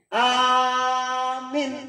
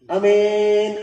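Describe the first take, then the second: First: The first vowel is long, the second short. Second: The first vowel is short, the second long. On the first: It means asking for protection. "A-na panjang mina pendek" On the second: It means a trustworthy person. "anak pendek mina dipanjangkan"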